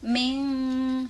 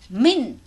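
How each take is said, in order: First: The n is blurred and nasal, not fully closed. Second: The n is pronounced fully and distinctly. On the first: The speaker calls it right. "min samar" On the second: The speaker calls it wrong. "Tidak boleh min ya"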